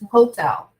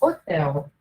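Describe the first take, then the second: First: The word starts with a breathy H sound. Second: The word starts with no H sound. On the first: This is the English way of saying it. "Em inglês, ele, ele é pronunciado" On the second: This is the Portuguese way of saying it. "Nós falamos hotel, sem pronunciar o H"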